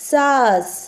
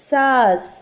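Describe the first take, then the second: No difference in how they are said.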